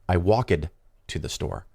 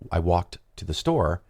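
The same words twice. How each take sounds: First: It is said with an Italian accent. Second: It is said with a native English accent.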